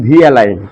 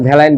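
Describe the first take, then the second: First: The V is said as a separate letter. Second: The V is blended into one word. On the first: The speaker calls it right. "আমি ওটা বলি ভি অ্যালাইন" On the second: The speaker calls it wrong. "আমি ওটা ভ্যালাইন বলি না"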